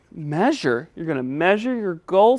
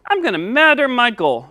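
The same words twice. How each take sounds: First: Said in the usual way. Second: "measure" pronounced "madder"; lisping puppet. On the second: Pretend. Puppet stating his goal, "measure" said as "madder". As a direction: put a D where "measure" has its zh sound. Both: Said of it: "help you say your S".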